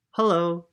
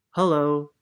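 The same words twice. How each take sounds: First: Timid high hello; shy shivering hello. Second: Friendly big bear greeting; polar bear hello. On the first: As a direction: say it nervously, a little shaky. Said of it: "said Posey, shivering". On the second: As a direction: greet them like a kind bear. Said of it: "said the polar bear". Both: Acted.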